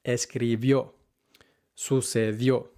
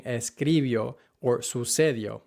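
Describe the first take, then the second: First: Escribió and sucedió stressed on the final ó; right stress. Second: Escribió and sucedió stressed on the second to last syllable; escribió with the wrong syllable stressed. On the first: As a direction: land the stress on the last syllable. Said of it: "the right pronunciation is". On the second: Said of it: "putting the emphasis on the second to last syllable". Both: Shown as a demonstration.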